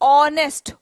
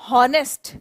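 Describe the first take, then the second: First: The word starts with a vowel sound. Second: The word starts with an h sound. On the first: The speaker calls it right. "we pronounce it as honest" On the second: The speaker calls it wrong. "We don't pronounce this as honest"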